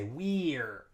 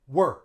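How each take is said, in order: First: The vowel is a long E sound. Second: The vowel is reduced to a schwa. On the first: The speaker calls it wrong. "Native English speakers wouldn't say we're" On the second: The speaker calls it right. "They would say we're"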